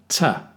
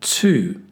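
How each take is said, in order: First: The word is said with a reduced vowel. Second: The word is said with a full vowel. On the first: "weak form" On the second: "Strong form"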